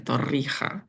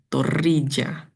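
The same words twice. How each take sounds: First: The consonant before the final vowel sounds like h. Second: The consonant before the final vowel sounds like English j. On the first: This is how it is said where it comes from. "di tempat asalnya ia dibaca Torrija dengan huruf hijaiyah yang familiar di lidah muslimku, H" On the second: This is how an Italian reading would sound. "Mungkin seandainya Torija ditemukan di Italia, ia akan jadi"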